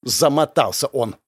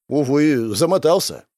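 First: Mocking echo, stressed "Замотался"; indignant snort. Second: Said in the usual way. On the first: A narrator's reading. Girl mocking her partner's excuse, indignant. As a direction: throw "Замотался" back with indignation, rising. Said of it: "Возмущённо фыркнула барышня".

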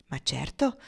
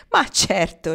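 First: Lower, gentle smiling reassurance. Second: Loud, hearty amused reply; amused, laughing. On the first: Pocket reassuring anxious Marnie, smiling. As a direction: reassure her easily with a smile. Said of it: "le rispose Pocket sorridendo". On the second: Pocket answering Marnie through his mirth, laughing heartily. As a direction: burst out with it, highly amused. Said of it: "scoppiò ancora a ridere". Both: A narrator's reading.

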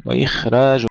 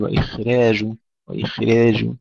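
First: وإخراج with a full, open alif, louder; correct open alif. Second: وإخراج with the alif wrongly leaned toward ee; wrong tilted alif. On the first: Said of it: "لا". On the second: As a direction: show the error on the alif of وإخراج. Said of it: "لا نقول". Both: Shown as a demonstration.

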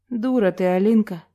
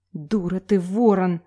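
First: Mildly spat-out insult; understated, disgusted let-down; disappointed contempt. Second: Mild hiss of anger; restrained spiteful retort; hissed insult. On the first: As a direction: dismiss them with disappointment. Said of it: "с разочарованием сплюнул Саша". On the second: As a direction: hiss it lightly, without raising the voice. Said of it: "зашипела Саютина". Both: A narrator's reading.

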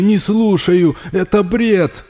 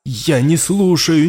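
First: Higher and louder, near a yell; panicked shout. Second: Louder, higher, slowed refusal; raised denial. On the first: Raul yells at the voice in his head, panicked. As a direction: yell to drown it out. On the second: Raul shouts down the voice in his head, rising. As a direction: push the voice away. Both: Acted.

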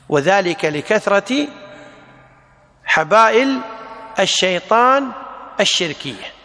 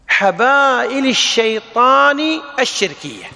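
First: Each word set apart with long pauses; word-by-word dictation. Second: Said in the usual way. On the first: Shown as a demonstration. Teacher dictating to students, word by word. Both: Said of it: "teacher repeats phrase for dictation".

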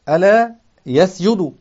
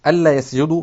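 First: ألا said as short "ala" without doubled l, slow and stressed; light alā reading. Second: ألا said as "alla" with a doubled l; doubled allā reading. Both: Shown as a demonstration. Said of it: "ألا هذه تكون مخففة".

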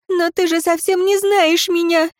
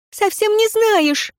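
First: Higher, desperate woman's cry; higher, despairing cry with the stress on «не». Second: Even higher, slow, insistent «Совсем не знаешь!»; slower, higher despairing repeat, «не» hit hard; desperate repeat. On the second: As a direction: drag out «не знаешь», pleading. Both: Acted. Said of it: "в отчаянии воскликнула".

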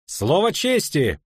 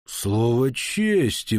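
First: Lightly voiced young knight, drawn out; youthful voice. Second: Very slow, stretched-out words; drawled. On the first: Second knight backing up the first, youthful voice. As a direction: chime in slowly with a youthful voice. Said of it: "подхватил юношеским голосом другой". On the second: Baron recognising the viscount, slow drawl. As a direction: draw each word right out. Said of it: "протянул он". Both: A narrator's reading.

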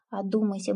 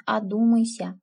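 First: Said in the usual way. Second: Louder urging. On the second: Acted. Aunt warns niece twice.

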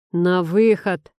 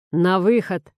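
First: Slow, loud, metallic repeat; a cold robotic bouncer repeating himself. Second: Loud, firm command to leave; demanding order. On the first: Guard repeats the order to Artyom, slow metallic command. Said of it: "металлическим голосом повторяет". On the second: Bouncer orders two brawlers out, loud demand. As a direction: bark it out like a bouncer. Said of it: "требует охранник". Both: A narrator's reading.

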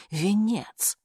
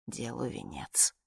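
First: A sudden exclamation, a little higher. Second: Slow, breathless whisper. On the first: Narrator realizing what squeezes her temples, exclaiming. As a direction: blurt the word out as it dawns on her. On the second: Dying woman to herself, whispered slowly. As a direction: let it fade to a whisper at the end. Dying narrator's grim aside. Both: Acted.

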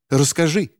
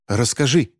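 First: Higher, insistent demand; urgent demand. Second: Urgent demand; demanding woman. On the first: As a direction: push harder for an answer. (настойчивее, выше) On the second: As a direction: press the boy to tell. (требовательно) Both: Acted. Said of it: "потребовала женщина".

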